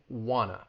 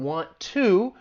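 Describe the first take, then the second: First: The words blend into one reduced word. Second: Both words are said fully and separately. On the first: "it's getting reduced to wanna" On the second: "instead of saying want to"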